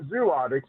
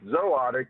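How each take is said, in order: First: The first syllable has a 'zoo' vowel. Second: The first syllable has a 'zoh' vowel. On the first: The speaker calls it wrong. "It's not zootics" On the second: The speaker calls it right. "think of Z O. It's zootic in zoology"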